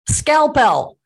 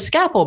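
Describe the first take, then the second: First: The word has an L sound before the P. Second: The word has no L sound before the P. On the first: The speaker calls it right. "do a little revisionist pronunciation to get it right" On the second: The speaker calls it wrong. "we always said scapel"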